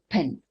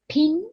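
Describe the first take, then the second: First: The vowel has the South African sound. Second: The vowel sounds like the English short i. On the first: The speaker calls it right. "we say pin" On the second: The speaker calls it wrong. "We don't say pin"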